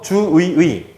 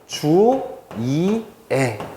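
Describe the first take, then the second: First: Both later syllables are said with the vowel ui. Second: The middle syllable is i, the last is e. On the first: "주의를요, 그대로 읽고 조사의도 그대로 읽는 거예요" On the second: "마지막으로는 주이애"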